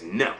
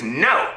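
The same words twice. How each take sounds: First: Said in the usual way. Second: Raised, mocking refusal beside a laugh; laughing imp. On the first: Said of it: "He says". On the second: Imp laughs off her second guess, raised and mocking. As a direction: reject the guess with impish glee. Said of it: "Laughs the imp".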